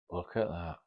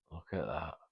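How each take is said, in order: First: Hushed, amazed murmur; awed. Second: Fading to almost nothing, awestruck; even softer, lost in the sight; hushed awe. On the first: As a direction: retell her stunned first look, softly. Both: Retold or imitated. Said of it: "her eyes and her mouth, like".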